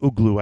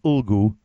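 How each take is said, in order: First: The g sound comes before the l sound. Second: The l sound comes before the g sound. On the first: The speaker calls it wrong. "I always call it Uglu. I say that wrong" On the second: The speaker calls it right. "It's Ulgu"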